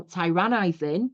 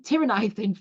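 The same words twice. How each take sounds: First: Tyrannizing with the first syllable said as a long TIE, slowed down; accent slip. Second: Said in the usual way. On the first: Real, not acted. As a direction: stumble into TIE-ran-ize-ing, drawn out. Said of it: "I don't know what happened to my accent there". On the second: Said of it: "sorry, I don't know what happened to my accent there".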